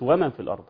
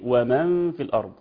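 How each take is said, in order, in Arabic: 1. يُقال بأسلوب اللهجة العامية. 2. يُقال بأسلوب التلاوة الفصيحة. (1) "وليست ومن في الارض" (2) "هي ايه ومن في الارض"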